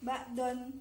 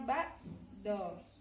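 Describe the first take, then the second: First: The word ends with an added n sound. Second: The word ends on a vowel without n. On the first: The speaker calls it wrong. "Rifa tadi bacanya ba'don" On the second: The speaker calls it right. "tapi dibacanya ba'do. Hanya satu garis aja"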